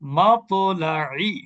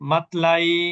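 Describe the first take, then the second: First: The stopped consonant ends with a short echoing bounce. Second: The stopped consonant ends quietly with no bounce. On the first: The speaker calls it right. "যখন কলকলা হবে তখন কিভাবে পড়বো?" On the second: The speaker calls it wrong. "এটা কিন্তু কলকলা ছাড়া পড়লাম"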